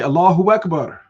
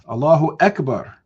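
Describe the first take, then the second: First: A w sound joins the two words together. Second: Akbar starts with a clear separate ah sound. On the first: The speaker calls it wrong. "they end up putting a W in there. They say Allahu Akbar" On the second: The speaker calls it right. "Put that ah in there"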